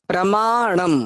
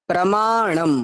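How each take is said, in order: No difference in how they are said.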